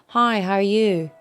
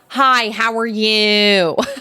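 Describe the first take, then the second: First: It is said in an Australian accent. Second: It is said in an American accent. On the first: "my Australian accent isn't great, but she's like, you know, I can say like" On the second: "But with American, it's like"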